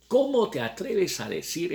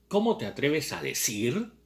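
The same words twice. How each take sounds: First: "Cómo" hit higher and louder, rising; stressed indignant repeat. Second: Said in the usual way. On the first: Shown as a demonstration. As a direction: punch "Cómo" to show her outrage. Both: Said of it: "Miren lo que le pregunta Lenina".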